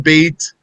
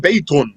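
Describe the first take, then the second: First: The word ends without any added vowel sound. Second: The word ends with an added 'un' sound. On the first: The speaker is stopping on the word. The speaker calls it right. "You just say bait if you're stopping" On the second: The word is pronounced with its nunation ending. The speaker calls it wrong. "technically you don't say baytun"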